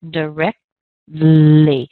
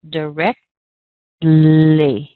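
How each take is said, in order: First: The T is stopped, gliding into a soft L. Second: The same.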